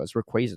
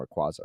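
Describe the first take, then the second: First: Rayquaza said as ray-KWAY-za; correct Rayquaza. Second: Rayquaza said as ray-KWAH-za; wrong Rayquaza. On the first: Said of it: "not Rayquaza". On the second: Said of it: "It's Rayquaza, not Rayquaza". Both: Shown as a demonstration.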